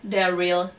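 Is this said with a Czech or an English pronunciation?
English. It is said with an English pronunciation. The speaker calls it right. "V angličtině je dobrý"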